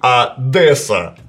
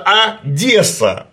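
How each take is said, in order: First: The d before the e is hard. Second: The d before the e is soft. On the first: The speaker calls it wrong. "а не «Одесса»" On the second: The speaker calls it right. "согласное перед ними смягчается, и получается «Одесса»"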